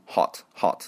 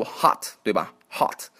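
First: British "hot" with a small rounded o; British accent. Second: American "hot" with a wide open "ah"; American accent. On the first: Teacher shows how the British read it, British accent. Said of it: "英国人也就读". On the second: Teacher shows how Americans read it, American accent. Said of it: "美国人会读". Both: Shown as a demonstration.

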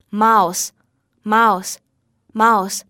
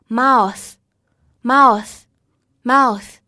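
First: Slow, careful "mouse", each ending in a simple voiceless s; 清辅音s示范. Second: Slow, careful "mouth", each ending in a tongue-between-teeth th; 咬舌音示范. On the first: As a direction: say "mouse" three times, spaced out, final s without biting the tongue. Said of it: "一个非常简单的清辅音". (慢速示范mouse，词尾发清辅音s) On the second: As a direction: say "mouth" three times, spaced out, tongue bitten on the final th. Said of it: "末尾是有一个咬舌音". (慢速示范mouth，词尾咬舌) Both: Shown as a demonstration.

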